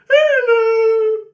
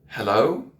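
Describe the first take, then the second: First: It is said in a strange, off-putting way. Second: It is said in a nice, sensible way.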